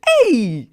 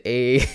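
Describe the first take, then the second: First: Put-on loud, high African-accented exclamation; exaggerated African accent, pitched way up. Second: Said in the usual way. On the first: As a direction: call it out big in an African accent. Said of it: "if Marcy's World is African, he probably said". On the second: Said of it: "Marcy's World said".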